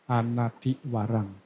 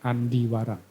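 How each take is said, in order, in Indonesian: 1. Kata pertama memiliki tiga suku kata. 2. Kata pertama memiliki dua suku kata. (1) "Yang tepatnya yaitu Anadi Warang" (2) "bukan Andi Warang"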